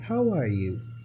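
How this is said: It is said in a happy tone. The speaker feels happy. "like if you're happy"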